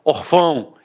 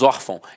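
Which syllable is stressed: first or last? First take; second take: last; first. First: The stress is on the last syllable. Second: The stress is on the first syllable. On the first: The speaker calls it wrong. "eu falaria orfão" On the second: The speaker calls it right. "a sílaba tônica está na penúltima"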